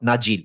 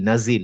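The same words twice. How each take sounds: First: The middle consonant is a j sound. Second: The middle consonant is a buzzing z sound. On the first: The speaker calls it wrong. "Not" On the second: The speaker calls it right. "নাজিল জা"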